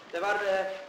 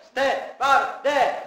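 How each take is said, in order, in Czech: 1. Slovo se volá tiše a jemně. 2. Slovo se volá hlasitě a ostře. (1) "musíte nahlás, takhle vám nikdo nepřijde" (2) "Pěkně ostře policejně"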